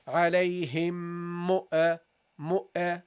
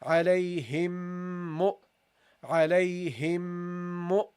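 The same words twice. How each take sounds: First: "mu, uh" with a trailing uh after the hamza; wrong extra vowel. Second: "Alayhim mu" slow, the m held into mu; slow nasal link. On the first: Teacher imitates the student error, slow. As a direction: add a stray "uh" after "mu". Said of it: "Don't say". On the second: Teacher links the words for students, slow. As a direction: hum the m into "mu". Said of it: "go from the meme to the hamza". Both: Shown as a demonstration.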